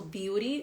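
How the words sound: The t is a soft flap, like r. "the T will become R sound"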